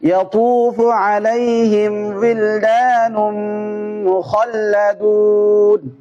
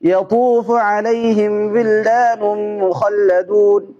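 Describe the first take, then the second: First: It is read at a medium speed. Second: It is read quickly. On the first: "medium গতি" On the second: "দ্রুত করে"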